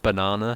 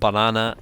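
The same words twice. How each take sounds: First: It is said with an English accent. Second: It is said with a Korean accent. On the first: "instead of banana" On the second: "say it a little bit more with the Korean sort of accent"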